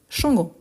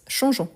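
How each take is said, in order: First: The g is hard, like the g in go. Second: The g is soft, like the s in measure. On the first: The speaker calls it wrong. "Sinon, on a les, les, les sons" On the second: The speaker calls it right. "Attention, c'est un verbe avec je, donc changeons"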